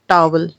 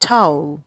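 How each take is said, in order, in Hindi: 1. पहला स्वर एक सादा 'ah' ध्वनि है। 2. पहला स्वर एक 'ow' ग्लाइड है। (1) "which is not correct" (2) "it should be टाउल"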